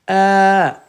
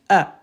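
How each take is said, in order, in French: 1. La voyelle est longue. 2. La voyelle est courte.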